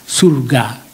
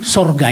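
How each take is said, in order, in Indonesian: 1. Vokal pertama diucapkan sebagai u. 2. Vokal pertama diucapkan sebagai o. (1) "Yang baku ialah S U R G A" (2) "Menurut bahasa Indonesia itu tidak baku"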